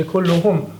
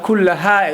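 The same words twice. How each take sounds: First: Kulluhum with u before a closing -hum; correct pronoun ending. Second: Kullaha ending in -ha in place of -hum; wrong pronoun ending. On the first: Teacher giving the correct form, kulluhum ending in -hum. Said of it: "It has to be". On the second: Teacher showing a wrong form, kullaha ending in -ha. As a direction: say kullaha with a clear final -ha. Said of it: "it would be wrong". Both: Shown as a demonstration.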